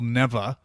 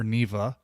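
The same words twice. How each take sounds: First: First guess at saying "Neva"; "Neva" offered as one possible pronunciation; unsure pronunciation. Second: Second guess at saying "Neva"; "Neva" with the other possible vowel; alternative pronunciation. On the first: Podcaster naming a game to co-hosts, first pronunciation of "Neva". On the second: Podcaster correcting himself to co-hosts, alternative pronunciation of "Neva". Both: Real, not acted. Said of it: "I don't know how to pronounce it".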